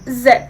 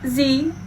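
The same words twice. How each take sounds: First: The letter is said the British way, 'zed'. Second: The letter is said the American way, 'zee'.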